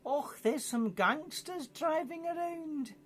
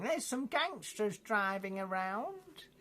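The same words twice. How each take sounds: First: Hammed-up Scottish granny accent, high and slow. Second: Mock old granny, high and slow; playing a fussy old granny, drawn out high. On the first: Dundee granny calling the police, mock Scottish accent. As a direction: camp Scottish old lady, drawn out up high. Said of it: "probably with a Scottish accent". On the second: Old grannies reporting gangsters, mock high slow granny voice. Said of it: "from old grannies going".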